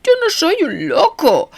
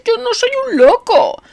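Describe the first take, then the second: First: High, anguished, stress on yo; mean it with anguish; anguished sincerity. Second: Very high, pleading, stress on yo; desperate plea. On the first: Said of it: "con una sinceridad angustiosa". (sinceridad angustiosa) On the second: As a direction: insist desperately on yo. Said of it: "suplicó". (súplica desesperada) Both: A narrator's reading.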